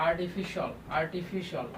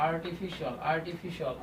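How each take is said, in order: No difference in how they are said.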